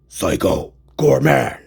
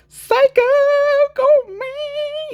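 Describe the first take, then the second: First: It is said in a hardcore metal voice. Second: It is said in a hair metal voice.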